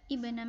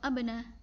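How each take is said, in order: First: The word begins with an i vowel. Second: The word begins with an a vowel. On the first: The speaker calls it right. "tapi ibna Maryam" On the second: The speaker calls it wrong. "atau abna"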